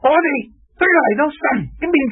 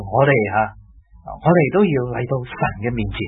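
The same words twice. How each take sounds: First: It is said in a stern, lecturing, preachy voice. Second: It is said in a low, warm, conversational voice. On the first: The speaker is imposing doctrine from above. The speaker calls it wrong. "这种有点像黄飞鸿那样说，这样就好像就是个教条味" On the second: The speaker is chatting with the listeners as equals. The speaker calls it right. "一种啊用沉一啲嘅声"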